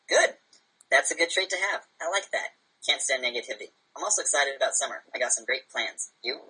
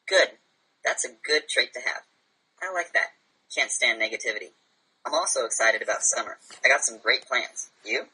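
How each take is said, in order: First: It is read at a faster pace. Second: It is read at a slower pace.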